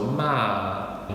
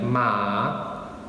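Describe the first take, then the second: First: The pitch falls through the syllable. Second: The pitch stays level and neutral. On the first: "the last tone is a descending tone" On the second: "the neutral tone"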